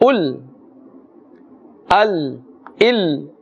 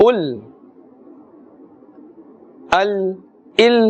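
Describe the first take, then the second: Both takes have the same delivery.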